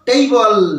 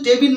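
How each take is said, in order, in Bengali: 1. প্রথম স্বরধ্বনিটি 'day' শব্দের 'ay'-এর মতো শোনায়। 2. প্রথম স্বরধ্বনিটি 'bed' শব্দের 'eh'-এর মতো শোনায়। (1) "এর সঠিক উচ্চারণ হলো টেইবল" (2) "এর সঠিক উচ্চারণ কিন্তু টেবিল নয়"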